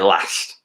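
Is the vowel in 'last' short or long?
short. It is said with a Northern English accent.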